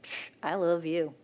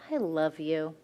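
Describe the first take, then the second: First: A scoffing "Psh, I love you"; a throwaway "Psh, I love you"; dismissive. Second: A tender, heartfelt "I love you"; sincere. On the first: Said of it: "Or you can look at them and be like". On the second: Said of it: "you can look at somebody and be like". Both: Shown as a demonstration.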